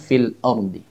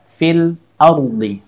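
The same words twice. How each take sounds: First: The hamzah is thickened into an O-like vowel. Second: The hamzah is said with a clear A vowel. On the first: The speaker calls it wrong. "bukan fil ardi" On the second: The speaker calls it right. "Seharusnya dibaca fil ardi"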